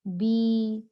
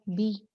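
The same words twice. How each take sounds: First: बी with the ee held for two beats; long bi. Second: बी clipped to one quick beat; short bi. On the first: Teacher correcting students to the long bi, drawn out. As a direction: stretch बी to two counts. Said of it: "हम इसको बी नहीं पढ़ेंगे। क्या पढ़ेंगे?". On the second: Teacher showing the short bi before the long one. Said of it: "बा के नीचे अगर ज़ेर हो". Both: Shown as a demonstration.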